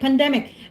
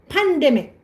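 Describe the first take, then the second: First: The stress is on the middle syllable. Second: The stress is on the first syllable. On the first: The speaker calls it right. "pandemic is in the middle" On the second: The speaker calls it wrong. "you said before pandemic"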